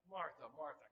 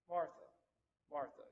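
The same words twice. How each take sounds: First: It is said harshly and impatiently. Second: It is said softly and gently.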